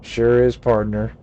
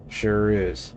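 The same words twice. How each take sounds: First: "Sure is" punched loud and twangy; hearty Western sidekick, louder; lightly voiced old cowboy hollering "Sure is"; cowboy drawl. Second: Said in the usual way. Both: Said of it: "Gabby doesn't talk like that".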